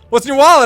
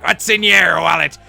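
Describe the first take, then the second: First: It is said in a cop's voice. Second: It is said in a pirate voice.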